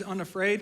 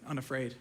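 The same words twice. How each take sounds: First: Said in the usual way. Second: Unafraid repeated much lower and softer; quiet doubting echo. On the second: Shown as a demonstration. Preacher quietly questions his own theme word Unafraid. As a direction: let Unafraid fall away, musing. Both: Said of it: "and that's not even true, is it?".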